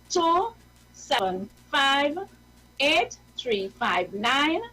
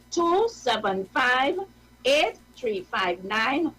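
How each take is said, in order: No difference in how they are said.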